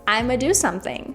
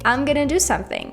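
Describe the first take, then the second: First: 'I'm going to' is reduced to 'I'ma'. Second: 'Going to' is reduced to 'gonna'. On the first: "you can also say I'ma" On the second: "you can say I'm gonna do something"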